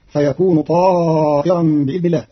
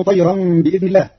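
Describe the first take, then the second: First: طائرا with long alif and hamza i, slow; slow ta'iran; Qalun reading. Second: طيرا short, tayran; no alif in طيرا; Hafs reading. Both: Shown as a demonstration. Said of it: "بألف بعدها همز مكسور".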